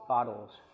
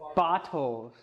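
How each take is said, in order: First: It is said in an American accent. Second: It is said in a British accent.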